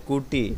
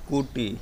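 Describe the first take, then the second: Both takes have the same delivery.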